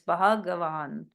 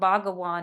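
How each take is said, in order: First: The first consonant has a puff of breath. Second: The first consonant has no breath after it. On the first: The speaker calls it right. "has again a bit of an aspirated H" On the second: The speaker calls it wrong. "It's not Bhagavan"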